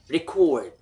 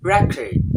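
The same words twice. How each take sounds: First: The stress is on the second syllable. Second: The stress is on the first syllable. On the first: It is used as a verb. "When it's verb" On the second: It is used as a noun. "When it's noun"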